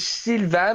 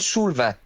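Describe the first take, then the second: First: The first vowel is a front 'ee'-like vowel. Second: The first vowel is a rounded 'oo' vowel. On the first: This is how the name is really said. "il s'appelle Sylvain" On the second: This is how Portuguese speakers say the name. "nous, on l'appelle Soulvain"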